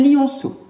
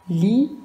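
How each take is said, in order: First: Said in the usual way. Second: "Li-on-ceau" in three separate beats with long pauses; syllable by syllable. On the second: Shown as a demonstration. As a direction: break "Li-on-ceau" slowly into its syllables. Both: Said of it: "Combien de syllabes a le lionceau?".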